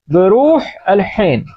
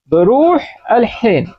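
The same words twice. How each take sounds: First: बरूह अल हिन with a breathy Arabic ḥ; slow, careful Arabic ḥ in बरूह अल हिन; Arabic pronunciation. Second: बरूह अल हिन with a breathy ḥ in both बरूह and हिन; slow, careful ḥ in बरूह and हिन; throaty Arabic ḥ. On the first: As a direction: push the ḥ sound from the throat in हिन. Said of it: "हा की आवाज निकालेंगे". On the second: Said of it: "दो मरतबा हा आया यहाँ पर". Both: Shown as a demonstration.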